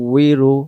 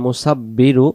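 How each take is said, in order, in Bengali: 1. মাঝের ব্যঞ্জনটি w ধ্বনি। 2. মাঝের ব্যঞ্জনটি b ধ্বনি। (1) "ওয়াও অক্ষর দুই ঠোঁটের মাঝখানের ফাঁকা থেকে পড়তে হয়" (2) "এখানে কিন্তু বা অক্ষর উচ্চারণ হয়"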